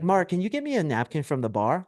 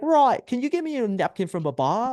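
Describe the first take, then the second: First: It is said in a plain accent. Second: It is said in an Australian accent.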